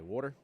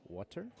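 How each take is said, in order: First: "water" in a Southern accent. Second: Said in the usual way. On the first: Shown as a demonstration. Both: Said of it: "my Southern accent really kicks in".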